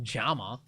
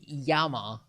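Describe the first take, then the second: First: The word begins with a J sound. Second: The word begins with a Y sound. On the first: "Isn't double L pronounced J? No. ... it's not Jama" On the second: "you can say Yama, but that's Spanish"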